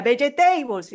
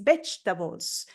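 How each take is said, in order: First: Vegetables in four syllables, be-ye-TEI-bols, higher pitched; Spanish-style mispronunciation. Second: Vegetables slowly in two syllables, VECH-tabols; teacher's correct pronunciation. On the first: Learner saying it wrongly in class, four-syllable vegetables. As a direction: pronounce vegetables phonetically, every vowel as in Spanish. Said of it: "tenemos cuatro sílabas". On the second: Teacher correcting a student, slow two-syllable vegetables. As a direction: correct it to vegetables, stressed up front, middle vowels dropped. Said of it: "y la profesora".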